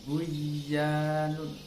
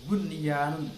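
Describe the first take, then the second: First: The n sound vanishes, merging into the y. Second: The n sound is heard clearly before the y. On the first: The speaker calls it wrong. "bukan dibaca buyanun" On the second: The speaker calls it right. "maka bacanya idhar"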